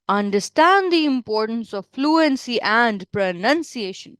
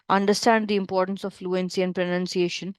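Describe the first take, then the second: First: It is said with heavily exaggerated intonation. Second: It is said in a flat, low pitch. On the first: "you don't have to do intonations a lot ... don't do that" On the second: "if I have to speak this in my normal pitch ... So boring"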